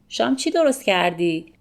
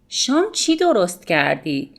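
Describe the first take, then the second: First: The t sound before the verb is dropped. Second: The t sound before the verb is pronounced.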